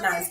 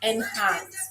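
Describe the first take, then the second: First: The name is said as one syllable. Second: The name starts with the letter N sound. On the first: The speaker calls it wrong. "it's actually not Nance" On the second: The speaker calls it right. "It's N and Hans. Literally the letter N"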